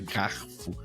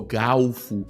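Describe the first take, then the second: First: It is said with an r sound before f. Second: It is said with an l sound before f. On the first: The speaker calls it wrong. "garfo é uma palavra feia de pronúncia nojenta" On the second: The speaker calls it right. "galfo é muito mais bonito"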